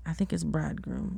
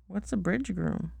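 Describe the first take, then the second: First: Bridegroom said as one word, bride-groom; corrected word. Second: Bridge groom said as two words, bridge then groom; misread word. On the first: Shown as a demonstration. Mother correcting her child's reading. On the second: Real, not acted. Child misreading bridegroom aloud.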